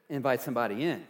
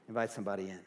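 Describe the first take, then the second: First: Said in the usual way. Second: Soft repeat. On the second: Shown as a demonstration.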